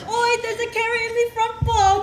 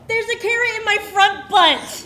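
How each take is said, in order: First: It is said in a put-on British accent. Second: It is said in the speaker's ordinary accent.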